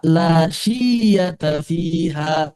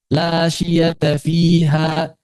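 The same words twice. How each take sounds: First: "la syiyata fiha" with the "syi" dragged far too long; over-lengthened vowels. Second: Said in the usual way. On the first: Shown as a demonstration. Teacher shows students the wrong reading, "la syiyata fiha" overlong. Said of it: "Maksudnya jangan kepanjangan". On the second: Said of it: "Jangan dibaca la syiyata fiha".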